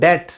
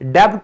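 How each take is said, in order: First: The word is said without any b sound. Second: The word is said with a b sound. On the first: The speaker calls it right. "आप कहते हो डेट" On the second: The speaker calls it wrong. "डेब्ट नहीं कहते। कई लोग गलती करते हैं, वो गलत है।"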